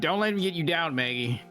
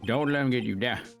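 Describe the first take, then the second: First: It is said in a different character's voice. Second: It is said in the old man's voice.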